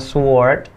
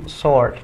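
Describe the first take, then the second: First: The W sound is pronounced. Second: The W sound is silent. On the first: The speaker calls it wrong. "dibacanya bukan sword" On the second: The speaker calls it right. "W-nya nggak dibaca"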